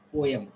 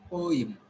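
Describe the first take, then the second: First: Poem, said POH-yum with a yum ending; wrong pronunciation. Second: Poem, said POH-im with a short i ending; correct pronunciation. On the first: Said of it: "not m". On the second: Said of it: "It is im". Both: Shown as a demonstration.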